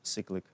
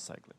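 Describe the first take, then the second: First: The first syllable sounds like 'sick'. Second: The first syllable sounds like 'sigh'. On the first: "some people pronounce it cyclic, ... it sounds like sick" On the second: "So I usually pronounce cyclic"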